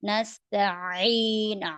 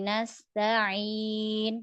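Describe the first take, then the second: First: The long vowel is pressed heavily and forced. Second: The long vowel is said lightly, without pressing. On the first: The speaker calls it wrong. "kalau ditekan" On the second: The speaker calls it right. "turun biasa aja, tipis"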